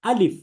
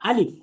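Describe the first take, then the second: First: It is said light, with unrounded lips. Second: It is said light, with unrounded lips.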